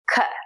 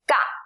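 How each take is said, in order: First: The consonant is released with a puff of air. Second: The consonant is released without a puff of air. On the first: "air is coming out of your mouth when you say it" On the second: "Just try to say the same sound without air"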